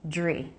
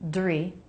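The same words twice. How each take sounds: First: The dr cluster starts with a j sound. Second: The dr cluster starts with a clear d sound. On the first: "often Americans pronounce the D R cluster so it sounds like J R. J" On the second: "You can make a D R cluster D"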